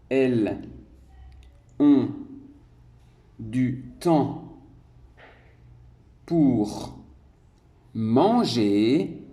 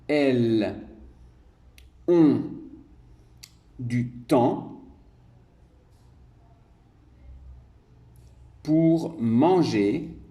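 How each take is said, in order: Both takes have the same delivery.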